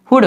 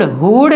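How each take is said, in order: First: "हुड" with a short, quick oo; correct short oo. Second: "हुड" with a long, stretched oo; wrong drawn-out oo. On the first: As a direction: cut the vowel in "हुड" short. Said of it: "जल्दी पढ़ेंगे हुड". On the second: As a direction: hold out the vowel in "हुड". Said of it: "हुड खींच के नहीं पढ़ना". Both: Shown as a demonstration.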